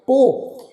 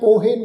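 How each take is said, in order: First: No vowel is sounded after the final h. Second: A vowel is sounded after the final h. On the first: The speaker calls it right. "ਅਸਲ ਵਿੱਚ ਸ਼ਬਦ ਦਾ ਉਚਾਰਨ ਕਰਾਂਗੇ ਪੋਹ" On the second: The speaker calls it wrong. "ਇਸ ਸ਼ਬਦ ਦਾ ਉਚਾਰਨ ਅਸੀਂ ਪੋਹੇ ਇਹ ਨਹੀਂ ਕਰਨਾ"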